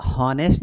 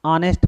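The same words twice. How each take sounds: First: हॉनेस्ट with a spoken h at the start; wrong pronunciation. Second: ऑनेस्ट with a silent h, starting on the open o; correct pronunciation. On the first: Teacher showing the class the wrong way, h sounded. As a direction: say हॉनेस्ट with a breathy h before the o. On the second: Teacher giving the class the right reading, silent h. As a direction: say ऑनेस्ट straight from the vowel, no h. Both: Shown as a demonstration. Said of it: "इसे हॉनेस्ट नहीं पढ़ेंगे".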